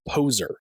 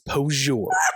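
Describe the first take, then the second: First: The word is said as plain 'poser'. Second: The word is said with a French-like 'poseur' ending. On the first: The speaker calls it right. "his pronunciation of poser" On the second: The speaker calls it wrong. "is posure"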